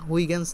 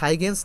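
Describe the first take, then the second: First: The name is said in a Dutch-style way. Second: The name is said in the common anglicized way. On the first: "যেহেতু Dutch বিজ্ঞানী ... কীভাবে উচ্চারণ করে" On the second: "উনার নাম হচ্ছে লাগে হাইগেন্স না"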